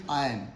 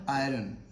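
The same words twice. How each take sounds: First: 'iron' as eye-un, no r; silent R. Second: 'iron' as eye-run, R voiced; R sounded. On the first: Teacher models for learners, silent R. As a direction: say 'iron' leaving out the r sound. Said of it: "The correct pronunciation of this word is". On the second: Teacher rejects it for learners, R sounded. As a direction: say 'iron' wrongly with an r before the vowel. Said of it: "R is silent here". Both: Shown as a demonstration.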